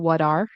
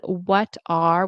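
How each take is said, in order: First: The T is a quick flap like a D. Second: The T is pronounced as a clear T sound.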